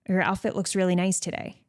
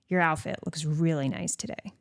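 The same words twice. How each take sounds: First: It is said in a plain, neutral tone. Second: It is said in a suggestive, flirty tone. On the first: It is just a simple compliment. "You could say it like that" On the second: The speaker finds her attractive. "One is more suggestive"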